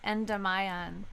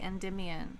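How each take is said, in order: First: The second syllable rhymes with 'lie'. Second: The second syllable rhymes with 'dim'. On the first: It is bent to fit a song rhyme. The speaker calls it wrong. "which is not the way that people pronounce that name" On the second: It is the usual way the name is said. The speaker calls it right. "People say Endymion"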